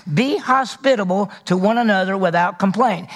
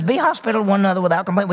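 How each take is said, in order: First: Said in the usual way. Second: Rattled off quickly, second time through; quick repeat. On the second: Shown as a demonstration. Preacher repeating the verse quickly to his congregation. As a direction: rush the verse out fast like a quick reminder. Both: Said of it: "He says".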